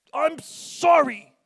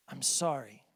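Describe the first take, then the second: First: High, loud, slow grudging sorry spat out; angry forced apology. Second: Mean every word of it, gently; sincere apology. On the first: Retold or imitated. Kid forced to apologize to sister, loud angry sorry. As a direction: force the apology out through anger. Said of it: "'Cause you're angry when you say it". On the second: Shown as a demonstration. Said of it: "reach down deep inside and find that sincerity".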